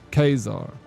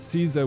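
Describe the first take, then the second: First: The name begins with a K sound. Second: The name begins with an S sound. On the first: This is how it was said in ancient Rome. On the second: This is the modern pronunciation.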